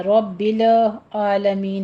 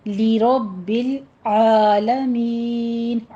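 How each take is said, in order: First: رب العالمین with a light, unrounded را; wrong version. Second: Very slow لرب العالمین with a heavy را and throaty عین; correct recitation. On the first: Teacher shows the mistake to avoid, slowly. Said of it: "رب العالمین نہیں کہنا". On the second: Teacher models the right recitation, very slowly. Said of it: "را کو مفخم پڑھیں گے". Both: Shown as a demonstration.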